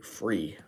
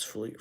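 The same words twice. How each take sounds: First: Said in the usual way. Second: "fle-" with an L slipped in for the R; slip of the tongue. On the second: Real, not acted. Streamer tripping over free lights, "fle-" slip. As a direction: start "free" as "fle-" and cut it off. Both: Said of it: "I said flea".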